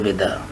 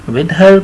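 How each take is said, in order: First: The second word is reduced without h or r. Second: The second word begins with a clear h sound. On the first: "आर को चुपके से फिर गायब कर दें" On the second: "with हर को कहेंगे"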